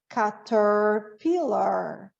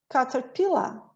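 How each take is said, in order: First: It has a strong curled R sound. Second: It has no R sound at the end. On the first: "o som do R do americano, como nós falamos, ele é puxadinho para dentro" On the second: "E no inglês uh, britânico"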